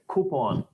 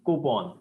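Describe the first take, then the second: First: The first consonant has a puff of air. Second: The first consonant has no puff of air. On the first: "that sound should have a wisp of air coming outside" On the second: "but still prefer using coupon"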